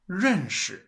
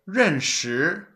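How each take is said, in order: First: The second syllable is light and toneless. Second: The second syllable has a rising tone. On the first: The speaker calls it right. "You say it as" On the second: The speaker calls it wrong. "You don't say"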